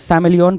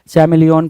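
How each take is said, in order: First: The word begins with an s sound. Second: The word begins with a ch sound. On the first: "कुछ लोग इसको सैमिलियन पढ़ेंगे" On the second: "कुछ लोग इसको चैमिलियन पढ़ेंगे"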